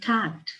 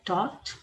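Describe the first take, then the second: First: It is said with an American accent. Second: It is said with a British accent.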